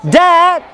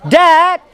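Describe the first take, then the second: First: The vowel is said long. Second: The vowel is said long.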